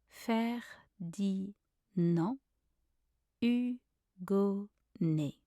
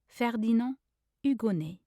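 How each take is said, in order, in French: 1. Le nom est prononcé lentement et traîné. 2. Le nom est prononcé à vitesse normale. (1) "then slowly" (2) "I will say everything once at a normal speed"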